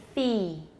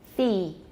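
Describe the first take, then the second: No difference in how they are said.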